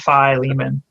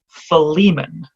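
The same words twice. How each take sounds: First: The first vowel is a long 'eye' sound. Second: The first vowel is a short 'ih' sound. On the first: This is the British way of saying it. The speaker calls it wrong. "That's sort of a British pronunciation" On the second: This is closer to the Greek. The speaker calls it right. "a softer, shorter I vowel at the beginning"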